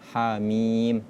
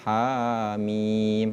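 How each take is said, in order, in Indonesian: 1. Vokal panjang dibaca dua ketukan. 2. Vokal panjang dibaca lebih dari dua ketukan. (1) "harus dibaca dua rakaat" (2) "tidak boleh dibaca"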